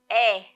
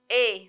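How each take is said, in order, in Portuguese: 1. A vogal é aberta. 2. A vogal é fechada. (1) "o som do E" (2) "do E fica E"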